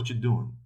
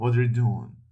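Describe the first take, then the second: First: It is said fast, with words run together. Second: It is said at a normal, careful pace.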